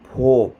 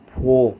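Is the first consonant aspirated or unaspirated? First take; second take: aspirated; aspirated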